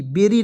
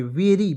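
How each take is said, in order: First: बेरी with a hard b sound; बेरी with b instead of v; wrong berry. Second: वेरी with v; correct very. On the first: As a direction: say बेरी with b, as the mistake. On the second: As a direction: say वेरी starting with v, not b. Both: Shown as a demonstration. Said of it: "बेरी नहीं".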